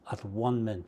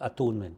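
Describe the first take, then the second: First: The parts are said as separate words. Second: The parts are run together as one word.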